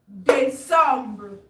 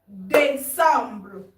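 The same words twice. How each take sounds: No difference in how they are said.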